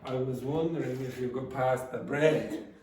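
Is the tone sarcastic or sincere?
sarcastic. It is said in a sarcastic, mocking tone. The request is actually impolite. "you could be sarcastic and say"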